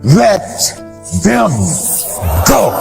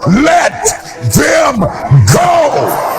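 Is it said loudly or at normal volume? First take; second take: normal volume; loudly. First: It is said at normal volume. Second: It is said much louder.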